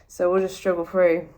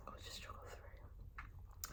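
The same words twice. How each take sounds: First: Said in the usual way. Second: Slow, unvoiced whisper. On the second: Shown as a demonstration. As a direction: breathe it out as a whisper. Repeats line whispered.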